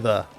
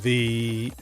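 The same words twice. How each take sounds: First: The word is said short and plain. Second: The word is said long and drawn out. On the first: This is the ordinary way of saying it. "So I'd normally say the" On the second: The speaker is buying time to think of the next word. "giving myself that time to think about words"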